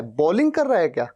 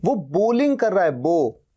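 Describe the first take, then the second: First: बॉलिंग with an open aw vowel, asked doubtfully; mock the wrong बॉलिंग as a question; wrong pronunciation, questioned. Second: बोलिंग with a clean long o, stressing बो; correct pronunciation. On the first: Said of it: "नहीं, वो बोलिंग कर रहा है". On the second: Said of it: "नहीं". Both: Shown as a demonstration.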